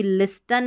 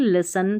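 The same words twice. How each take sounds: First: लिस्टन with the T sounded; wrong pronunciation. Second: लिसन with a silent T; correct pronunciation. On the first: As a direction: say लिस्टन with a clear T after S. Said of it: "इसको भी लिस्टन नहीं". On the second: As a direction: say लिसन, no T after S. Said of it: "लिसन पढ़ेंगे". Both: Shown as a demonstration.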